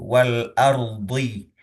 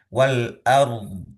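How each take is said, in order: First: The word ends with a short final vowel. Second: The word ends on a consonant, vowel dropped. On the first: The reading continues without stopping. "Wal ardi kan sebetulnya seperti itu" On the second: The reading stops at this word. "ketika mau wakaf"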